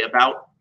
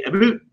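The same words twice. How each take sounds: First: Said in the usual way. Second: "About" said as "a-boot", higher pitched; exaggerated Canadian "About", rising, rhyming with boot; Canadian accent. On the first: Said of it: "ever heard a Canadian say about". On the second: Shown as a demonstration. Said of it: "They say".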